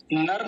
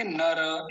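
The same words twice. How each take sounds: First: नर as one syllable ending on r; clipped final r. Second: नर as two syllables, na-ra; full final र. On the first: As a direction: say नर the Hindi way, no vowel after र. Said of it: "नर नहीं बोलेंगे". (नर, अंत में आधा र) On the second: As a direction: sound the vowel after र in नर. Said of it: "नर तब बोलते जब ये आधा". (नर, पूरा र बोलकर) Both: Shown as a demonstration.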